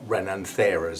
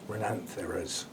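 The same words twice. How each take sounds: First: The stress falls on another syllable. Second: The stress falls on the 'an' syllable. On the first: The speaker calls it wrong. "not Rhenantheras as I've been saying it" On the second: The speaker calls it right. "The A N is the dominant, the bit you raise your voice to"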